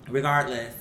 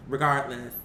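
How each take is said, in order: Both takes have the same delivery.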